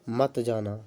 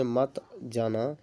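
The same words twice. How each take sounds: First: Said in the usual way. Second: Slight pause between मत and जाना; pause between words. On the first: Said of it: "के बीच में थोड़ा सा विराम". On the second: Shown as a demonstration. Teacher showing learners what juncture is, slight pause after मत. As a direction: say मत, hold a short break, then जाना. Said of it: "के बीच में थोड़ा सा विराम चिन्ह है".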